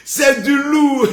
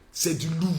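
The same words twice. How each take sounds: First: Slow laughing shout. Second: Said in the usual way. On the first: Acted. Hypes his own video. (crié lentement en riant)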